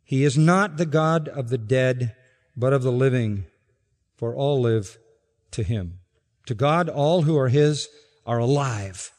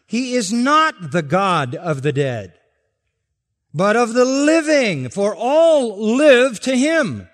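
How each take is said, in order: First: Quiet restatement. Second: Loud, higher, slow on "all live"; proclaimed verse. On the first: Pastor softly rereading the verse to listeners, calm. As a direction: bring it down gently after the climax. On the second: Pastor reading the verse aloud to the church, loud proclamation. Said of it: "Verse thirty-eight". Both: Shown as a demonstration.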